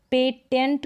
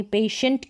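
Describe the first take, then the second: First: पेटेंट with a hard T in the middle; wrong T pronunciation. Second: पेशेंट, the T sounded as श; T read as SH. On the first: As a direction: say पेटेंट with "tent", not "shent". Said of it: "टी के बाद में आई ई है". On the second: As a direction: say पेशेंट as "pay-shent". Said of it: "टी को श पढ़ रहे हैं". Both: Shown as a demonstration.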